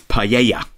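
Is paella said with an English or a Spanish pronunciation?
Spanish. The word is said with a Spanish-style pronunciation. The speaker calls it wrong. "one of the chefs pronounced paella as"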